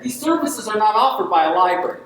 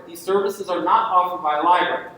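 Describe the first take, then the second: First: Said in the usual way. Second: Not pressed, set up to be corrected; stress on not. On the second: Shown as a demonstration. Speaker stressing not before correcting himself. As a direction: lean on the word not, then let the sentence fall. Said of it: "These services are offered by librarians".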